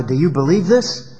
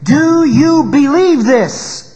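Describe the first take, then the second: First: Said in the usual way. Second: "Do you believe this?" high, loud and very slow; slow pleading challenge; slow emphatic question. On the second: Shown as a demonstration. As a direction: press the question home to the congregation. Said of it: "asking us the very same question today".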